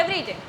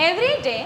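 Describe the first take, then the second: First: "every day" with a falling, closed tune; finished tone. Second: "Every day" left hanging, as if more will follow; continuing tone. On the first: Teacher shows the wrong comma tone, falling and final. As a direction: drop "every day" as if the sentence ends. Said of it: "तो ये ख़त्म हो गया". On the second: Teacher shows the right comma tone, open and unfinished. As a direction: hold "Every day" open before a half-second pause. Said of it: "अभी क्या लग रहा है ना कि हाँ, आगे और कुछ भी है". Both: Shown as a demonstration.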